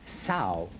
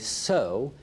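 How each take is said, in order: First: The vowel rhymes with 'cow'. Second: The vowel rhymes with 'go'. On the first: A fully grown female pig. "it's a fully grown female pig" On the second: Scattering seeds so plants will grow. "it means that you have some seeds in your hand"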